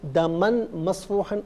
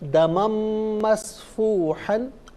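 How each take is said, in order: First: The n is pronounced separately before the m. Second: The n merges into a nasalized m. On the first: The speaker calls it wrong. "गलत" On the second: The speaker calls it right. "मिलाकर पढ़ने की सूरत में दो ज़बर की तनवीन को मीम के साथ मिलाकर मीम की आवाज़ को गुन्ने के साथ अदा करेंगे"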